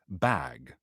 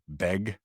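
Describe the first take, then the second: First: The vowel sounds close to the one in 'bat'. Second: The vowel sounds close to the one in 'beg'. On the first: It hides the speaker's regional origin. "and then so now I'm like" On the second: It marks the speaker as a Seattle local. "if you're a local from Seattle, you say you pronounce B A G"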